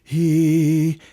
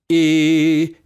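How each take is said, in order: First: The vowel starts with an airy h-like breath. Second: The vowel starts with a sharp glottal catch. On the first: "A breathy or aspirated onset would sound like this" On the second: "Here is an example of a hard glottal attack of onset"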